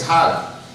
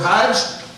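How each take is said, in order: First: It ends with a hard g, Egyptian style. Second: It ends with a j sound, non-Egyptian.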